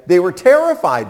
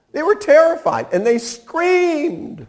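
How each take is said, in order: First: Said in the usual way. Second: Much higher, acting out the disciples' terror; a high, frightened-sounding repeat; dramatic retelling. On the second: Shown as a demonstration. Preacher retelling the disciples' terror to his congregation, pitched high.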